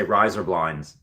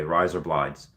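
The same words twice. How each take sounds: First: "Rise or blinds" run together so "or" blurs; "Rise or blinds" slurred into one phrase; rise or blinds said fast. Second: "blinds" said as "blind", no N; "Rise or blinds" with "blind" and no N sound; blinds without the N. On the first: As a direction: say "Rise or blinds" quickly, linked. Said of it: "it sounds like you say". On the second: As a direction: drop the N in "blinds". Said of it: "blinds without the N". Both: Shown as a demonstration.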